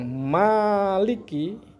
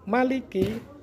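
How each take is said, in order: First: The first vowel is drawn out long. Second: The first vowel is kept short. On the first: The one who controls every matter on Judgment Day. "kalau dibaca panjang" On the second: The one who rules over Judgment Day. "Nek diwaca pendek"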